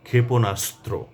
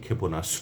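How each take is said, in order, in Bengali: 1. যুক্তব্যঞ্জনের তিনটি ব্যঞ্জনই উচ্চারিত হয়। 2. যুক্তব্যঞ্জনটি সরল হয়ে শুধু দুটি ব্যঞ্জনে দাঁড়ায়।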